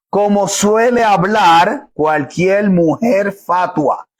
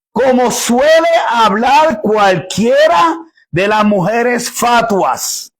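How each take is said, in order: First: "como suele hablar cualquier mujer fatua" drawn out very slowly, "suele" weighted; slow verse reread. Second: SUELE stressed, every word of "Como suele hablar cualquiera de las mujeres fatuas" slowed and weighed; slow quoted verse. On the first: Preacher rereading the verse slowly so they see its wording. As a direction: spell the phrase out word by word for the congregation. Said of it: "miren la composición de la frase".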